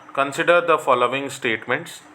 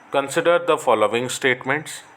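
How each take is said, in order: No difference in how they are said.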